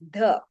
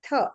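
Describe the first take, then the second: First: The th sound is voiced, with a buzz. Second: The th sound is unvoiced, only breath. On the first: "When it is voiced, it makes the" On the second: "The second one is unvoiced. You make a th sound"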